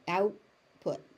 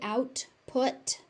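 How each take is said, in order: First: The T in the middle is unaspirated. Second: The T in the middle is aspirated. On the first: The speaker calls it right. "the T on out is not being aspirated there" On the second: The speaker calls it wrong. "it sounds like you're stressing it"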